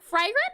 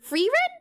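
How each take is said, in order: First: The first syllable rhymes with 'fry'. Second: The first syllable rhymes with 'free'. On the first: "say the fry" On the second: "say the fry like you would free"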